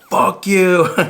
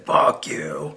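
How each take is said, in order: First: The phrase is yelled out loudly. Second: The phrase is held in and restrained. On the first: "screaming out" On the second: "a little bit more held in"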